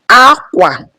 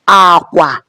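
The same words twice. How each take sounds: First: The first syllable is high, the second low. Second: Both syllables are on a low tone. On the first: It means cloth. "which is high, low" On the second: It means bed or bridge. "which is bed or bridge, low, low"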